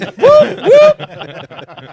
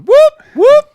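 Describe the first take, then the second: First: High, loud whoop breaking into laughter; laughing siren whoop. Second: High, loud whooping call; police siren whoop. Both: Shown as a demonstration. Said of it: "introduce you by going".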